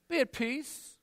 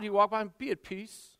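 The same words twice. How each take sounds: First: Dismissive. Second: Said in the usual way. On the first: Acted. Believer dismissing the hungry.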